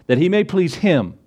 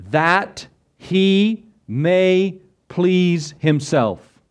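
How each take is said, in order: First: "him" as the closing word, said at normal pace; matter-of-fact correction ending on a clear "him"; corrected reading. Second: "himself" at the end of a word-by-word, drawn-out line; very slow, spaced-out reading landing on "himself"; deliberate misreading. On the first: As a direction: read it straight through, landing plainly on "him". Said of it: "Now who's the him?". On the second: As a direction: stretch every word slowly up to "himself", as a deliberate misquote. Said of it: "Doesn't say that, does it?". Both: Shown as a demonstration.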